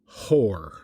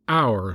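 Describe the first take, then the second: First: It starts with an h sound, rhyming with pour. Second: It starts with a vowel, rhyming with sour. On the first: The speaker calls it wrong. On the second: The speaker calls it right. "knock off the H and say hour like sour or scour"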